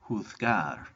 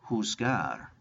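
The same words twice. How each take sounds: First: It is said with a Spain pronunciation. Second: It is said with a non-Spain pronunciation.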